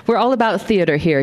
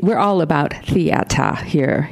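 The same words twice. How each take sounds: First: Said in the usual way. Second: Slow Boston theata, r dropped to "ah"; attempted Boston accent on theata; Boston pronunciation. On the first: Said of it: "pronounced the second theater just as Charles had". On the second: Shown as a demonstration. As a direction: say theata with an open Boston "ah" ending. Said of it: "I did it backwards".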